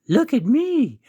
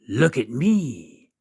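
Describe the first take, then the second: First: It is said in a put-on girlish voice. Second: It is said in a non-girlish voice.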